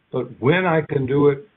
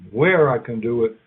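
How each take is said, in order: First: "when" lifted and leaned on in a lecture; stress on WHEN. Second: "where" leaned on, pitch dropping slightly; stress on WHERE. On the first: Lecturer contrasting when with where, stressing "when". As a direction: lean on the word "when", rest of the line level. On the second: Lecturer contrasting where with when, stressing "where". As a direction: hit the word "where", keep the rest even. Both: Shown as a demonstration. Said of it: "are also part of our rules".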